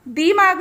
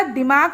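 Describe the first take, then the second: First: दिमाग with दि lengthened to "dee"; wrong vowel length. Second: दिमाग with a short, quick "di". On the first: Teacher showing pupils the misspelt word, दिमाग with long ई. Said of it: "दिमाग नहीं होता". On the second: Teacher correcting the misspelt word, दिमाग with short इ. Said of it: "छोटी ई की मात्रा". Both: Shown as a demonstration.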